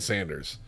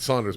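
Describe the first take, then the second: First: The first vowel sounds like the 'a' in 'cat'. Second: The first vowel sounds like the 'aw' in 'saw'. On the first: This is how the business says its own name. The speaker calls it right. "They answer the phone Sanders" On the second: This is how the speaker always said the name. The speaker calls it wrong. "I called it Saunders my whole life"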